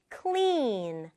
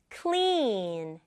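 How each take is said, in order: Both takes have the same delivery.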